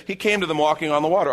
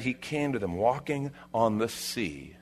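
First: Quick, higher, offhand recital; breezy, over-familiar read-through; glib reading. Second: Softer, measured scripture reading; hushed, deliberate retelling; weighty reading. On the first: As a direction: rattle it off as old news. Mimics casual, over-familiar reading. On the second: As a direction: let the wonder of it land. Rereads the verse with weight. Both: Acted.

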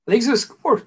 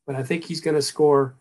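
First: Strained, higher, choking mid-sentence; forcing words out while choking; choking on a drink. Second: Said in the usual way. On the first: Real, not acted. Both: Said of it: "I think I'm choking to death".

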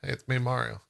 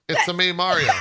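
First: Said in the usual way. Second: Lively video-game catchphrase, a bit higher; Mario. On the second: Acted. Joking about a movie casting, a lightly put-on Mario voice. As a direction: attempt a cartoon plumber's catchphrase. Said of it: "That's not the voice".

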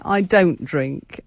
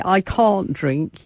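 First: Don't said slow and firm; stress on DON'T. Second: Can't said slow and firm; stress on CAN'T. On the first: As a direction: lean on don't, slowly. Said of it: "You say". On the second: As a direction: lean on can't, slowly. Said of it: "You don't say". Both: Retold or imitated.

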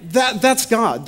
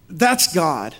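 First: Higher, stressed repeat of that's God; preacher insisting that's God, stressed; emphatic repeat. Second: Said in the usual way. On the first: Real, not acted. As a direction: lean into it the second time.

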